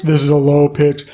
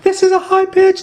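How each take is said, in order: First: Low pitch. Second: Much higher squeaky demo voice; high pitch. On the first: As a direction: drop down into a lower voice. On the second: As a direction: jump way up into the top of the range. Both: Shown as a demonstration. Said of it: "pitch is how high or how low we speak".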